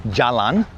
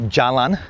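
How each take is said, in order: The two takes are said the same way.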